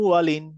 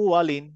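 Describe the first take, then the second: Both takes have the same delivery.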